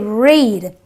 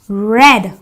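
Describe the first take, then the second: First: The vowel is a long 'ee' sound. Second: The vowel is a short 'eh' sound. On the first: It is the present tense. The speaker calls it wrong. "I don't say read" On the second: It is the past tense. The speaker calls it right. "The E A gives me the S sound"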